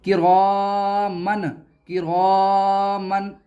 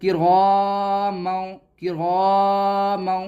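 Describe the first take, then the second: First: किरामन slowly with a sharp final n; wrong clear-n किरामन. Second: किरामौ drawn out slowly, noon hidden in the nose; slow nasal ikhfa. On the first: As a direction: end किरामन on a plain n. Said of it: "ऐसे नहीं". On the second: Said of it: "बल्कि आपको इस तरह पढ़ना है". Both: Shown as a demonstration.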